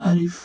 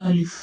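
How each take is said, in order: Both takes have the same delivery.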